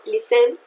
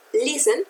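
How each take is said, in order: First: "listen" wrongly stressed on the last syllable, lis-TEN; wrong final stress. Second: "listen" stressed on its first syllable, LIS-ten. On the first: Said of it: "no listen". ("listen" con el acento equivocado en la última sílaba) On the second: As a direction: correct "listen" with weight on LIS. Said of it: "está en la primera sílaba". ("listen" con acento en la primera sílaba) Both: Shown as a demonstration.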